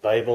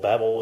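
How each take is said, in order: First: It is said in a non-American pronunciation. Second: It is said in an American pronunciation.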